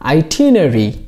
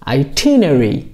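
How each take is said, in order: First: The word is said in a British accent. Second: The same.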